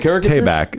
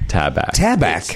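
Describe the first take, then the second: First: The first syllable sounds like 'tay'. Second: The first syllable sounds like 'tab'. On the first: The speaker calls it wrong. "because we used to say" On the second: The speaker calls it right. "Tab like the soda and back"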